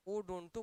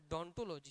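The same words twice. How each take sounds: First: ओडोंटो with the opening O sounded; the form to avoid, ओडोंटो, voiced with its leading O; initial O pronounced. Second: डोंटोलॉजी said from the D onward; the spoken form डोंटोलॉजी, no vowel before the D; silent initial O. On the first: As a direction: say ओडोंटो starting on a clear ओ. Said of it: "मत बोलिएगा". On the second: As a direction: leave off the O and say डोंटोलॉजी. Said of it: "बोलते समय डोंटोलॉजी ही बोलिएगा". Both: Shown as a demonstration.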